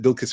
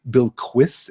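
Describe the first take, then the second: First: The name is said without a w sound. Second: The name is said with a w sound. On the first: "I pronounced it Bilkis for years and years and years" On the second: "I have heard the liquid U being used, so it's almost a Bilquis"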